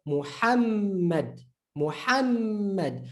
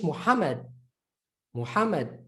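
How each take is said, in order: First: Muhammad slowly, with a long held M; Arabic double M. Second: Muhammad with a short single M; quick undoubled middle M in Muhammad; English reading. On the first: Teacher showing Arabic reading of Muhammad, doubled M. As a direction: hum through the double M in Muhammad. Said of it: "But in Arabic, double letter". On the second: Teacher showing how English says Muhammad, English reading. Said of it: "So we might say in English". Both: Shown as a demonstration.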